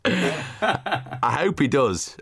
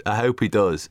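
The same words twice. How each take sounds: First: Slow, laughing through the words. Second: Said in the usual way. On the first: Real, not acted. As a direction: chuckle while you say it. Laughing at Rooty joke.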